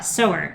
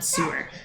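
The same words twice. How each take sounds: First: The first vowel sounds like 'so'. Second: The first vowel sounds like 'sue'. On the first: A person who sews. The speaker calls it right. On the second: A drain for waste water. The speaker calls it wrong. "not sewer"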